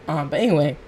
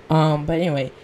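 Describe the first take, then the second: Both takes have the same delivery.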